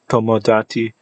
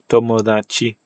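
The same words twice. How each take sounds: First: The d is a full, hard stop. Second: The d is softened, not fully stopped.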